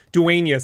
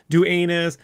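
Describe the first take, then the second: First: Said in the usual way. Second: "Duenas" ending in a weak "-nuz", no "y" sound; mispronounced surname. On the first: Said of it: "people can't fucking remember R". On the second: Retold or imitated. Imitating people who get his surname wrong, mispronounced "Duenas". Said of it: "They go Dunas".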